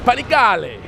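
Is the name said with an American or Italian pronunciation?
Italian. It is said with an Italian pronunciation. The speaker calls it right. "it's Panigale"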